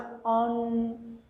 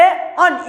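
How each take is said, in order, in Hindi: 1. अनुनासिक अक्षर नरमी और मिठास से बोला जाता है। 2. अनुनासिक अक्षर ज़ोर और कठोरता से बोला जाता है। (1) "उसके उच्चारण में बहुत ही मीठापन था" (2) "यहाँ पे जोर दिया गया"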